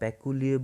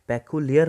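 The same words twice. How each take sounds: First: The final r sound is silent. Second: The final r sound is pronounced. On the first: The speaker calls it right. "इसमें भी आर जो है वो silent जाएगा, पेक्यूलियर बोलेंगे" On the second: The speaker calls it wrong. "पेक्यूलियर नहीं बोलेंगे इसको"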